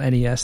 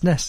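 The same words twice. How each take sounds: First: It is said as three separate letters. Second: It is said as one short word. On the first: The speaker calls it wrong. "spelling it out NES, that's troublesome" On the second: The speaker calls it right. "it's three syllables instead of one"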